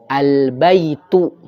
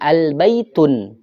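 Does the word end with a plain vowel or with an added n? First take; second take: plain vowel; added n. First: The word ends on a plain final vowel. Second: The word ends with an added final n. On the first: The speaker calls it right. "Maka contoh tadi al-baitu" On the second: The speaker calls it wrong. "Jangan kita mengatakan al-baitun"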